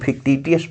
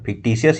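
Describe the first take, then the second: First: The middle syllable is said with a 't' sound. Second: The middle syllable is said with an 'sh' sound. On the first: The speaker calls it wrong. "हम फिक्टिटियस पढ़ते थे" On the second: The speaker calls it right. "फिक्टिशियस ही पढ़ना चाहिए"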